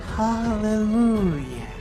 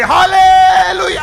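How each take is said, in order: First: It is said in a quiet voice. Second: It is said in a loud voice.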